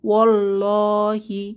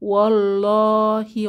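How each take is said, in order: Both takes have the same delivery.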